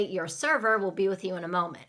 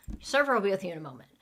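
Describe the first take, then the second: First: Said in the usual way. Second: Rapid, run-together server line; so fast. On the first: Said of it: "where they say it so fast". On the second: Shown as a demonstration. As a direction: rattle it off so fast it could be missed. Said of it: "they say it so fast".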